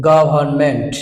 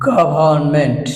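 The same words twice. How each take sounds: No difference in how they are said.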